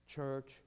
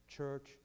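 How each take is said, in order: Both takes have the same delivery.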